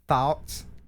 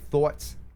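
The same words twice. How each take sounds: First: It is said with a Southern US accent. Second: It is said with a Philadelphia accent.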